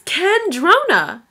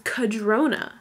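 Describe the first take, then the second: First: An n sound comes before the d. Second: There is no n sound before the d. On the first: The speaker calls it right. "But there's an N in there" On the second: The speaker calls it wrong. "I've always thought that it was Cadrona"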